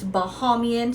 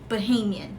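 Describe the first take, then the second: First: The middle vowel matches the vowel in Bahamas. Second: The middle vowel differs from the vowel in Bahamas. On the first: The speaker calls it wrong. "it's pronounced the Bahamas, so a lot of people think it's Bahamian" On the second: The speaker calls it right. "the correct pronunciation of it"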